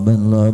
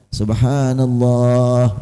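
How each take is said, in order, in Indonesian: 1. Kata itu dipotong jadi gumaman pendek. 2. Kata itu diucapkan lengkap dan jelas. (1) "nggak tahu itu apa artinya banloh" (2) "imam membaca subhanallah"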